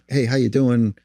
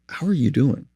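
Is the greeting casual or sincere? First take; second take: casual; sincere. First: It is a casual greeting, not wanting an answer. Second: It is a sincere question, really wanting an answer.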